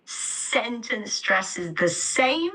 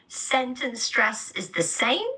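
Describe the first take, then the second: First: Second stressed take of the sentence; stress on sentence and same. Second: "Sentence" and "same" hit with a lift; rising stress on "same". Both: Shown as a demonstration. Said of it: "I'm stressing sentence and same".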